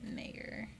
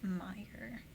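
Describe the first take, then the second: First: The first syllable sounds like 'may'. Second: The first syllable sounds like 'my'. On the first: It follows the spelling. "You would think you would pronounce it Mayer" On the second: It is how most people say it. "but I feel like everyone says Meyer"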